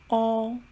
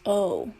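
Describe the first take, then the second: First: It sounds like the Chinese pinyin vowel. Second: It sounds like the English letter name. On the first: "but in Chinese, we pronounce it as o" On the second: "In English, we pronounce it as o"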